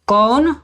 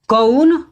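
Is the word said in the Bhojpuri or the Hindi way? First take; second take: Hindi; Bhojpuri. First: The vowel is said the standard Hindi way. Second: The vowel is said the Bhojpuri way. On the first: "Hindi में बोलते हैं" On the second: "Bhojpuri में बोलेंगे"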